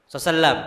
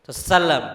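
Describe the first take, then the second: The two takes are said the same way.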